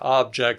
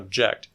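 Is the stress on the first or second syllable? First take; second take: first; second. First: The stress is on the first syllable. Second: The stress is on the second syllable. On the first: It is used as a noun. "nouns get stress on the first syllable" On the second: It is used as a verb. "verbs get stress on the second one"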